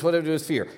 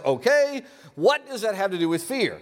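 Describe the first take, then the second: First: Said in the usual way. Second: Puzzled dog voice. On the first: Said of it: "So he started new churches". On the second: Pretend. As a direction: squeak it out as the husky. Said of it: "which of course translates as".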